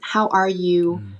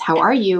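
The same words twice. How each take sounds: First: It is said sincerely, with genuine concern. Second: It is said casually, as a routine greeting.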